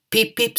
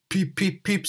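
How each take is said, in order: First: High, bright peep as Edward; Edward's whistle. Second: Whistle it as Henry the engine; Henry's whistle. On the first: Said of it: "said Edward". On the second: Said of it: "said Henry". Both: Acted.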